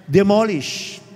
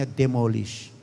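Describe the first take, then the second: First: Demolish said at normal pitch, firm and falling. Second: Demolish said low and soft, falling; soft demo. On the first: Pastor giving the word for the church to repeat. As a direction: land the word demolish firmly. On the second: Pastor modelling the word softly for the congregation. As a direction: drop the voice on demolish, hushed. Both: Shown as a demonstration. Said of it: "Pinasasabi lang natin".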